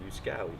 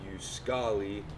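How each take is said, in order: First: The name is said with an anglicized pronunciation. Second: The name is said with a Finnish pronunciation. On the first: This is how the speaker says his own name. "but I pronounce it" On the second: This is how people in Finland say the name. "In Finland, they pronounce it"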